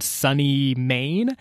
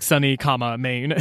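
First: Said in the usual way. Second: Sunny, comma, Maine with the comma said aloud; spelled-out place name. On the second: Shown as a demonstration. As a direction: read "comma" out between Sunny and Maine, rising on Maine. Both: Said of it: "So, like, Sunny, comma, Maine".

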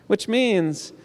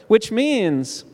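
The two takes are said the same way.

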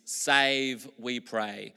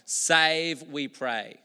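First: Said in the usual way. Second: A crowd's rising plea; louder plea. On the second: Retold or imitated. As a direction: Save lifted higher and louder, pray falling. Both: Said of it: "it basically means".

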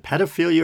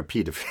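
First: "pedophilia" with a short e, as in pet; short-e pronunciation. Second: "pedophilia" with a long e, as in pea; long-e pronunciation. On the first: Host puzzling over the word, "pedophilia" with short e. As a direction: say "pedophilia" starting like "ped". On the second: Host trying the other way, "pedophilia" with long e. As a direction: say "pedophilia" starting like "peed". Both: Shown as a demonstration. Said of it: "or is it pedophilia or pedophilia".

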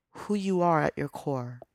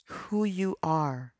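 First: Said in the usual way. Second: Drawn out, each word weighted; slow it right down and savour it; slow emphatic repeat. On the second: Real, not acted.

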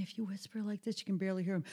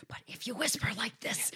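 First: Soft, airless little whisper; weak whisper. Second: Voiceless whisper pushed with lots of air; stage whisper. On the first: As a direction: whisper with no air behind it. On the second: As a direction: project the whisper across a room. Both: Shown as a demonstration. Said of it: "Think about a stage whisper".

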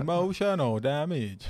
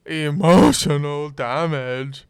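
First: Slow exaggerated accent; meme catchphrase voice. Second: Slow put-on accent; meme catchphrase voice. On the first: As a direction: drag out Emotional damage. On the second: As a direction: stretch it out, hammy.

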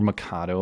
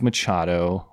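First: "Machado" with the ch said as k; alternative pronunciation. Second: "Machado" with a ch sound as in church; first pronunciation attempt. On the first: Host offers another guess at the name, "Machado" with a k. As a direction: say "Machado" as "Ma-KAH-do", trailing softer. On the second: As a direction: say "Machado" slowly, with ch as in chat. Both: Shown as a demonstration. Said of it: "or however you pronounce this".

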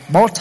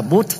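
First: "Bodh" said as "bot", o vowel. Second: "Bodh" said as "but", oo vowel. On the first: Teacher giving either accepted reading, "Bodh" as "bot". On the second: Teacher giving the alternative reading, "Bodh" as "boot". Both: Shown as a demonstration. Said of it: "Bodh hay là Bodh đều được".

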